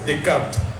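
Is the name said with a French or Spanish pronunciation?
French. The name is said with French pronunciation. "pero que lo pronuncies Descartes"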